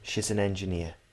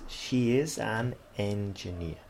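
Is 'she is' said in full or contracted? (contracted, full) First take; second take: contracted; full. First: She's is contracted and linked with a z sound. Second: She is is said as two separate words.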